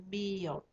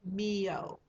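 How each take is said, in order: No difference in how they are said.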